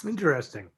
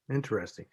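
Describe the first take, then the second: First: Said in the usual way. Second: Repeated much softer, to himself; a soft, lower afterthought; quiet musing. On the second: Real, not acted. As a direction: drop the voice and let it fade.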